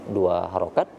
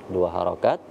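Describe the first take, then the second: Both takes have the same delivery.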